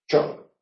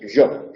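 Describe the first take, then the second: First: The first sound is a voiceless sh-like sound. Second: The first sound is a voiced buzzing zh sound. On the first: "Incluso puede llegar a ser una che" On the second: "la central la hacen vibrante"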